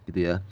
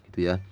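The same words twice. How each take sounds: No difference in how they are said.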